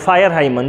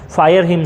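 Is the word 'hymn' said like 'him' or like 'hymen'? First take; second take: hymen; him. First: Hymn is said with two syllables, like 'hymen'. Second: Hymn is said with one syllable, like 'him'. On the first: The speaker calls it wrong. "जो कि गलत उच्चारण है" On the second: The speaker calls it right. "Fire हिम सही होगा"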